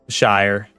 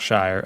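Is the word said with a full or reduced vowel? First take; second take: full; reduced. First: It is said with a full 'shy-er' vowel. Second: It is said reduced, close to 'sher'. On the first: The speaker calls it wrong. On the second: The speaker calls it right.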